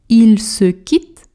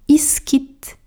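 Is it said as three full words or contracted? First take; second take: full; contracted. First: Each word is said fully and separately. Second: The words are squeezed together into one.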